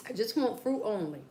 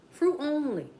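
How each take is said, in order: First: Said in the usual way. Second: "Fruit only" said high and loud, stress on "Fruit"; emphatic repeat. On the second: Shown as a demonstration.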